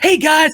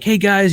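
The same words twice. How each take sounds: First: It is said with exaggerated, fake excitement. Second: It is said in a calm, relaxed way. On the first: The enthusiasm is put on and not genuine. The speaker calls it wrong. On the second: The speaker is being genuine. The speaker calls it right.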